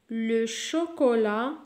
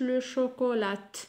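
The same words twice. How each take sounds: First: The final T is silent. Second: A final T sound is pronounced. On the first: The speaker calls it right. "la lettre muette T" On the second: The speaker calls it wrong. "ما نقولوش"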